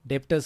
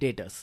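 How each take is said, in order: First: A b sound is pronounced in the middle. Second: No b sound is pronounced in the middle. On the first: The speaker calls it wrong. "डेप्टर्स नहीं बोलना है" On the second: The speaker calls it right. "बी silent"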